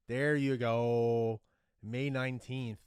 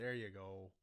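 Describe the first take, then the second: First: Very loud, long drawn-out cheer; triumphant shout. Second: Said in the usual way. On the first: Real, not acted. Fan finally finding the final's date, triumphant shout. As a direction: belt it out and stretch it in triumph.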